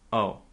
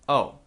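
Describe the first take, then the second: First: It is said in a disappointed tone. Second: It is said in a flat, neutral tone. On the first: The news is unwelcome. "That shows that you're disappointed" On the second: The news is new but of no concern. "you can just say totally flat or neutral"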